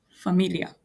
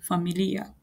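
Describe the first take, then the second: First: Familia with a short, run-together "-lia" ending; wrong pronunciation demo. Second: Familia with a long, clear "li" before the final "a"; careful Swahili pronunciation. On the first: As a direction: say familia quickly, gliding over the last syllables. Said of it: "I'm not saying". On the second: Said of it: "I'm saying familia". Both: Shown as a demonstration.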